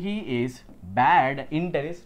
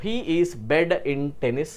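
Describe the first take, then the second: First: "bad" with an open a, not "bed"; corrected "bad". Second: "bad" said as "bed", with a short e; misspelt "bad" read out. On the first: Teacher corrects the misspelling for students, "bad" said with an open a. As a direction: open the vowel wide on "bad". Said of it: "చిన్న చిన్న spelling mistakes చూడండి". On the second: Teacher reads the misprinted question to students, "bad" sounding like "bed". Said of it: "బెడ్ కాదు". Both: Shown as a demonstration.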